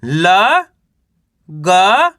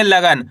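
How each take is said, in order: First: ल and ग each said alone with a pause after; syllable by syllable. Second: लगन said as one smooth word; blended in one go. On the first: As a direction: sound out ल, then ग, as separate letters. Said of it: "चलिए एक बार फिर से देखिए". (ल और ग अलग-अलग, रुक-रुक कर) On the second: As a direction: join the sounds into लगन at once. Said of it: "तो मिलके बन जाएगा लगन". (लगन एक साथ जोड़कर) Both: Shown as a demonstration.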